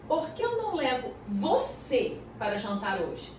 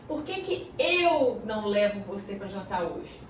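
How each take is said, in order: First: The word você is stressed. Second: The word eu is stressed. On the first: It is you rather than someone else. "Ou seja, você ao invés de outra pessoa" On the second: The speaker rather than someone else would take you. "Eu te levar ao invés de outra pessoa"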